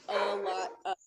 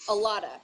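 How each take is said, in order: First: The words are said as three separate words. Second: The words are reduced and linked into one. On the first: "is a lot of three words"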